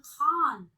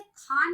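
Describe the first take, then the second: First: खान with a throaty, scraped kh; dotted fricative kh in खान; nukta खान. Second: Undotted kh in खान; wrong खान. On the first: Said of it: "बोलेंगे खान". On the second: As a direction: say खान with a puffed k stop. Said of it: "खान नहीं बोलेंगे". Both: Shown as a demonstration.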